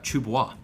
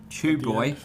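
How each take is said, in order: First: Boy is said in a French-sounding way. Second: Boy is said as plain English 'boy'.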